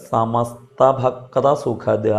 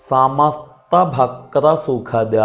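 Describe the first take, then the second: The two takes are said the same way.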